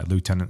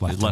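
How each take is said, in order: First: It is said the American way, loo-tenant. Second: It is said the British way, lef-tenant.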